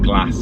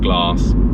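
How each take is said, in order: First: It is said with a northern English accent. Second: It is said with a southern English accent. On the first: It is the pronunciation they might pick up up north. The speaker calls it wrong. "if we started saying glass" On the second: It is the family's own native pronunciation. The speaker calls it right. "instead of glass"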